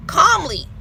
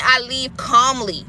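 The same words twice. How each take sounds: First: "calmly" said higher and drawn out; calmly, stressed higher. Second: Slow and calm. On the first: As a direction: lean on "calmly" the second time. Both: Shown as a demonstration.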